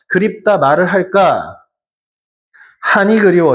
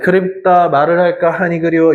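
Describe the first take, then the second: First: It is read with hesitant pauses between phrases. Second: It is read straight through without pausing.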